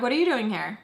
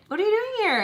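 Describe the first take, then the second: First: Said in the usual way. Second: High-pitched excited squeal of a greeting; imitating her excitement. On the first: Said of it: "I'm like". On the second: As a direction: mimic an over-excited friend, pitched way up. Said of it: "all excited".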